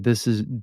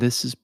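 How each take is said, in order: First: The voice sounds dark and muffled. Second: The voice sounds bright and crisp. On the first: "So this is dark" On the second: "and this is bright"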